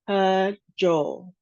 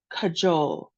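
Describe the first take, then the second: First: Slow "cajole", split after the first syllable; two separate syllables. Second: Said in the usual way. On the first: Shown as a demonstration. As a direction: break "cajole" into ca, pause, jole. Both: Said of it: "two syllables".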